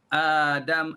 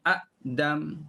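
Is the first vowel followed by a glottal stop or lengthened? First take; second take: lengthened; glottal stop. First: The first vowel is long with no glottal stop. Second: A glottal stop follows the first short vowel. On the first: This is the form actually recited. "mak badal kan Adam" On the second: This is the original underlying form. "asalnya Adam"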